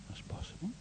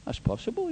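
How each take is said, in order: First: Breathless whispered repeat. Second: Said in the usual way. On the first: Shown as a demonstration. Preacher letting the thought of death sink in, whispered. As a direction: drop it to a whisper. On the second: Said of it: "That's possible. (whispered repeat)".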